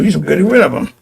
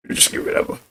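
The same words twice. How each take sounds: First: Said in the usual way. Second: Much softer, breathy whispered echo; whispered repeat. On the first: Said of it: "said once plainly, then repeated hushed". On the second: Shown as a demonstration. Repeating the point about roaches to listeners, whispered. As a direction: drop it to a whisper. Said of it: "repeat dropped to a hush".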